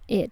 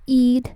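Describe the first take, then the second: First: The vowel is a short lax English 'i'. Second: The vowel is a tense Spanish-style 'ee'. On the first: The speaker calls it right. "sino que es el sonido id en inglés" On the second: The speaker calls it wrong.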